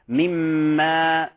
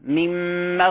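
First: The vowel is drawn out too long. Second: The vowel is kept short. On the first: The speaker calls it wrong. "فإذا أشبعنا الفتحة انقلبت إلى ألف، وهذا يسمى لحن جلي" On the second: The speaker calls it right. "الوقت الزمني للفتحة أقل من الألف"

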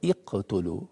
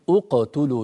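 First: The word begins with an i vowel. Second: The word begins with a u vowel. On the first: The speaker calls it wrong. "وليس اقتلوا" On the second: The speaker calls it right. "إذا كان الثالث مضموم تضم"

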